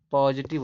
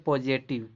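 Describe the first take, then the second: First: "पॉजिटिव" as POZ-i-tiv; "पॉजिटिव", middle vowel short i; correct pronunciation. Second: "पॉजिटिव" with e in the middle, po-je-tiv; wrong pronunciation. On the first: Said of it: "होता है". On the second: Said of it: "नहीं". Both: Shown as a demonstration.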